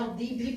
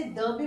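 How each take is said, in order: First: "the" with a long ee vowel; "the" as thee. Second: "the" with a short schwa, thuh. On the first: Teacher showing students the other reading, "the" as thee. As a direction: say "the" to rhyme with see. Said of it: "इसकी right pronunciation क्या है". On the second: Teacher showing students one reading, "the" as thuh. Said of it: "इसे the भी बुलाया जाता है". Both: Shown as a demonstration.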